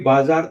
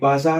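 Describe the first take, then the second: First: The middle consonant is a j sound. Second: The middle consonant is a z sound. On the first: The speaker calls it wrong. "B A जे A R ... क्योंकि बाजार तो है नहीं" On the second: The speaker calls it right. "B A जेड A R ... बाजार है"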